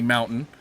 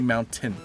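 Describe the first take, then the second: First: The T sound is softened or dropped. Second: The T sound is pronounced hard and clear. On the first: "I know I say mountain" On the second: "like a hard T family"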